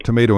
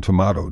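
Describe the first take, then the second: First: Tomato said tuh-MAY-toh; long-a pronunciation. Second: Tomato said tuh-MAH-toh; broad-a pronunciation. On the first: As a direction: say tomato with the vowel of day. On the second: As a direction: say tomato with the vowel of father. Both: Shown as a demonstration. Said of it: "how about tomato and tomato".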